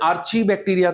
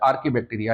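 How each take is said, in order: First: The consonant after 'ar' is a ch sound. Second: The consonant after 'ar' is a k sound. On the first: The speaker calls it wrong. "कुछ लोग इसका pronunciation आर्ची बैक्टीरिया करते हैं" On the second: The speaker calls it right. "क, चा नहीं बोलना है"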